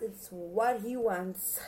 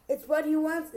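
First: Slowly, leaning on what; slow deliberate repeat. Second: Higher and louder, punchy; emphatic. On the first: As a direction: spell it out slowly, word by word. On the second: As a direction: fire it off with emphasis. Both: Shown as a demonstration.

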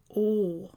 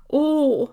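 First: A quiet, mild "Åh" of wonder; soft exclamation. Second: A higher, louder "Åh" in awe; exclaimed. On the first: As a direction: let out a small "Åh" at the view. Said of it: "utbrister Sancho Panza". (ett stilla förundrat "Åh") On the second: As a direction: cry out "Åh" as the dawn breaks. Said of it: "utbrister Sancho Panza igen". (ett högt, hänfört "Åh") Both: A narrator's reading.

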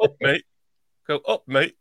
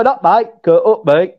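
First: Louder learner's Yorkshire "Up, mate"; imitated Yorkshire accent. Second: Yorkshire "Up, mate"; Yorkshire accent. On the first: Host checks his copy with co-host, louder Yorkshire attempt. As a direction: copy the Yorkshire greeting with more volume. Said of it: "Like that". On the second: Shown as a demonstration. Co-host teaches how they greet, Yorkshire accent. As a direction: model UP with a northern English vowel. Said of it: "They, they go".

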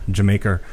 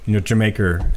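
First: Jamaica said British style, ending Jamaicer; British pronunciation. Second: Jamaica with an er at the end, Jamaicer; New York Jamaicer. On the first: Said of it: "it's a British phonetic". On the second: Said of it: "put an er at the end of". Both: Shown as a demonstration.

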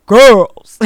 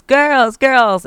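First: Dad's loud, commanding one-word call; deep baritone dad. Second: Loud, high call of the daughters' names, ignored; mom yelling names. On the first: Dad calling daughters from the couch, loud and commanding. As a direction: boom it out like a father everyone obeys. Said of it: "with his deep baritone voice". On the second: Mom calling her daughters, loud and high. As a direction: mom shouting for her girls from across the house. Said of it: "I'm yelling their names". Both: Retold or imitated.

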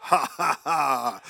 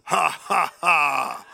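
First: A hint of a maniacal laugh; mock-crazy ha ha ha. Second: Booming loud slow laugh, ha by ha; mighty triumphant heavenly laugh; God's laugh. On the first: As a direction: own laugh, lightly maniacal. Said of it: "it almost sounds maniacal". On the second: Retold or imitated. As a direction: laugh like the Lord on his throne. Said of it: "And he sounds like this".

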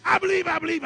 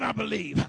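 First: "I believe, I believe" lifted high and loud; preacher's rising chant; rising call. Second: "I believe" dropped low and settled; preacher's falling resolve; falling close. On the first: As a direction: throw "I believe" up to the crowd. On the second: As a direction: bring "I believe" back down. Preacher chanting answer. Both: Acted.

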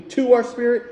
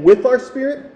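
First: "to" leaned on, set against with; stress on to. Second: "with" punched loud and rising; stress on with. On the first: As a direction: hit the word "to". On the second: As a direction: hit the word "with" hard. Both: Shown as a demonstration. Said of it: "You see the difference between".

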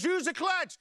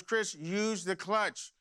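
First: Much higher, urgent retold holler; exasperated yell. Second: Slow, deliberate fatherly reminder; measured instruction. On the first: Father yells at son grinding gears, exasperated. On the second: Retold or imitated. Father gives Chris his usual advice, measured. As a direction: spell out the advice patiently, without raising the voice. Father's saying, delivered as lesson.

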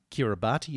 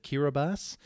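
First: Kiribati said "kira-bah-tee"; "Kiribati" with the final "ti" sounded as "tee"; spelling pronunciation. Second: Kiribati said "kira-bahs"; "Kiribati" ending in an s sound; local pronunciation. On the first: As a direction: say Kiribati just as it is spelt. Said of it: "I was saying". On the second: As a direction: say Kiribati with "ti" as a final s. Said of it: "instead of Kiribati". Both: Shown as a demonstration.

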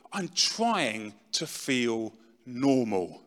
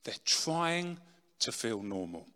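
First: Drawn-out, heavily slowed reply; slow weary quote. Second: Trying leaned on, then the rest falls away softer; stress on trying. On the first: Retold or imitated. Addict answering a worried friend, slow and drawn-out. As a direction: stretch every word like someone exhausted. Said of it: "And their response to you would be". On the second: Real, not acted. Explaining what addicts really want, "trying" stressed, ending soft. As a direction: press on "trying" and let "to feel normal" drop quiet. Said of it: "They're not trying to get off their head".

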